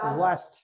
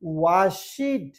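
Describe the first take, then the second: First: The ending is a short 't' sound. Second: The ending is an extra 'id' syllable. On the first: The speaker calls it right. "হবে ওয়াশড" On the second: The speaker calls it wrong. "আমরা বলি ওয়াশিড"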